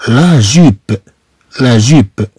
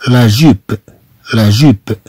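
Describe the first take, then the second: No difference in how they are said.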